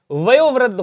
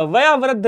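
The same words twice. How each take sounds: First: वयोवृद्ध with o, "vayo-vriddh"; correct middle vowel. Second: वयावृद्ध with aa, "vayaa-vriddh"; wrong middle vowel. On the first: Teacher correcting students, वयोवृद्ध with o. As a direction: round the vowel after y in वयोवृद्ध to o. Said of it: "होता है". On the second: Teacher showing students the error, वयावृद्ध with aa. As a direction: say वयावृद्ध with aa after y. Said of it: "नहीं होता". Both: Shown as a demonstration.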